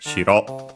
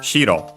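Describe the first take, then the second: First: The pitch stays level with no drop after the first syllable. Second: The pitch is high, then drops on the second syllable. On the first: It means castle. "The other one unaccented, shiro" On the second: "one accented, so shiro"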